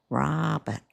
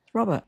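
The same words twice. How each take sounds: First: Drawn-out Canadian Robert; kids' new Canadian accent. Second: Said in the usual way. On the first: Retold or imitated. Mum repeating the kids' answer, imitated Canadian accent. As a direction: mimic a kid's Canadian vowel in Robert. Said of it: "I heard their accents change".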